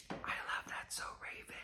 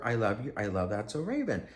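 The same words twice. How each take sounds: First: Breathy, unvoiced whisper, far softer. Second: Said in the usual way. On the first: To the celebrity at the sale rack, a secret whisper. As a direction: whisper it secretly as she passes. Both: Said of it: "I'm just gonna whisper".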